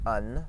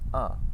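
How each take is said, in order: First: A full N consonant is pronounced at the end. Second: It ends in a nasal vowel without a full N. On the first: The speaker calls it wrong. "You're not saying un" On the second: The speaker calls it right. "you're saying uh"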